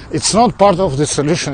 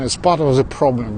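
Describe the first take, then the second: First: "not" punched louder and higher than the rest; stress on not. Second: "part" given the weight, falling close; stress on part. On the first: Chatting to viewers on a walk, stress on "not". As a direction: lean hard on "not" to flip the idiom. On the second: Chatting to viewers on a walk, stress on "part". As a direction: land on "part" and let "problem" fall. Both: Real, not acted. Idiom contrast, not versus part.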